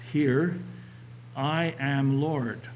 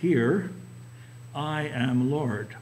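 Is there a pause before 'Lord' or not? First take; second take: no pause; pause. First: There is no pause before 'Lord'. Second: There is a pause before 'Lord'.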